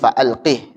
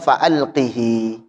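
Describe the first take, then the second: First: The word ends on a bare consonant. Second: The word ends with a short vowel. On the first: This is the form read in this transmission. "Maka menjadi fa'alqih disukunkan" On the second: This is the original form. "Asalnya fa'alqihi"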